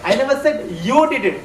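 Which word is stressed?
you. The word you carries the strongest stress. Someone else, not the listener, may have done it. "but I might have said that somebody else has done it"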